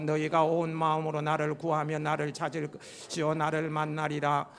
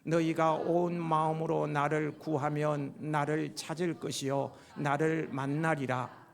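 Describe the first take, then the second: First: It is read fast, at triple speed. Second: It is read at a normal pace.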